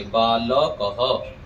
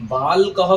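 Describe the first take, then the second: First: बालकः very slow as baa-la-ka-ha; correct full pronunciation. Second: बालकः squashed to baal-kaha, middle vowel dropped; wrong run-together pronunciation. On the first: Teacher corrects the error for students, बालकः slow with every syllable sounded. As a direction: give "la" its own syllable in बालकः. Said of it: "बालकः नहीं कहेंगे". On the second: Teacher warns students of the error, बालकः said as baal-kaha. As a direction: swallow the "a" after l in बालकः. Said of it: "बालकः कहेंगे तो गलत है". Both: Shown as a demonstration.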